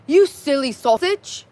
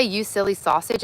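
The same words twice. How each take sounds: First: Slow, loud, higher-pitched attempt at a British accent. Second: Said in the usual way. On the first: Shown as a demonstration. Streamer attempting a requested British accent for chat, self-consciously hammed up. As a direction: put on an awkward British accent, drawn out. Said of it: "in a British ac". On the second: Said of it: "Can you say".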